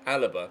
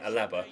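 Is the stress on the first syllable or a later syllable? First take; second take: first; later. First: The stress is on the first syllable. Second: The stress is on a later syllable. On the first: This is the form believed to be correct. The speaker calls it right. "I think it's at the beginning. I think it's Alaba" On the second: This is the form habitually said by mistake. The speaker calls it wrong. "but I always end up saying Alaba"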